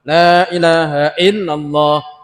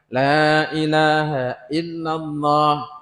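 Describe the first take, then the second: First: The phrase is said quickly. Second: The phrase is said at a moderate pace. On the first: "tambah cepat" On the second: "mulai cepat"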